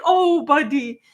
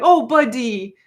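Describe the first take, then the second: First: Higher, louder pitying "Oh, buddy"; fond rueful pity. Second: Sympathetic, pitying "Oh, buddy" to a clumsy dog; like consoling a dog who bonked his head; rueful fond pity. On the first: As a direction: console a dog that bonked his head. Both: Shown as a demonstration. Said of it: "That was the voice".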